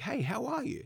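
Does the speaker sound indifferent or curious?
curious. It sounds genuinely curious and interested in the answer.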